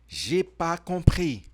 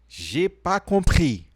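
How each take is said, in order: Both takes have the same delivery.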